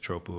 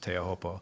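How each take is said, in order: First: The name is clipped to two short syllables. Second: The name is said in full with all syllables. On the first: This is a common casual version of the name. The speaker calls it wrong. "some people refer to it as Chopu" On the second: This is the proper version of the name. The speaker calls it right. "I think the proper pronunciation pronunciation is Teahupo'o"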